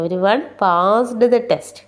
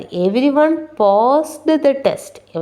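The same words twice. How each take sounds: First: Very slow repeat, word by word. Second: Very slow, word by word English; slow dictation. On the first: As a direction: read it out slowly once more. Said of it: "second slow read-through". (വീണ്ടും വളരെ സാവധാനം) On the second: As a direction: read it out slowly for the class. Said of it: "slow model sentence read". (വളരെ സാവധാനം വായന) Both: Shown as a demonstration.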